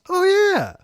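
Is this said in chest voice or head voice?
head. It is said in a higher head voice. "And head voice is when you go like, oh yeah"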